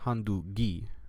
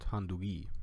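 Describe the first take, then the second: First: The middle g is a hard stop. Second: The middle g is soft and breathy. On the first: The speaker calls it wrong. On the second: The speaker calls it right.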